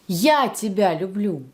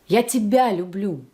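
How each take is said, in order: First: The first word carries the main stress. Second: The middle word carries the main stress. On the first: This person, not someone else, is the one who loves. "It's me, not him, not her" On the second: The love is for this person and no one else. "I love you and only you"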